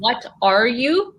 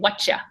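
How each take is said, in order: First: Each word is pronounced fully and clearly. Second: The words merge into one short reduced word. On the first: "And what are you?" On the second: "We usually say"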